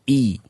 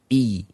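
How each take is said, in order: No difference in how they are said.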